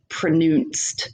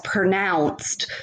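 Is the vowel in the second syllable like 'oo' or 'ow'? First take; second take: oo; ow. First: The second syllable has an 'oo' vowel. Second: The second syllable has an 'ow' vowel. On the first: "the O U sound is pronounced as U" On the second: "words such as pronounced"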